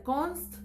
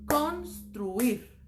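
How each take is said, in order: First: "construir" broken as const... ruir; "construir" split before the r: const-ruir; wrong syllable split. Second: "construir" in two pieces, cons... truir; correct syllable split. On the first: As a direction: jam the t onto the first syllable of "construir", long pause, then ruir. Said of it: "No puede ser". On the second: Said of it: "No tiene sentido". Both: Shown as a demonstration.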